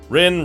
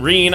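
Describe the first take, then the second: First: The vowel is short, like in 'sit'. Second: The vowel is long, like in 'seen'. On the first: The speaker calls it wrong. "I pronounced it as Rin for the longest time" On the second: The speaker calls it right. "traditionally it should be pronounced Reen"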